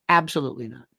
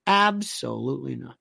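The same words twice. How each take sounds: First: Said in the usual way. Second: Low, deliberate repeat with "Absolutely" lengthened. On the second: Real, not acted. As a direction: draw out "Absolutely" in a low, firm denial. Repeats answer drawn out for emphasis.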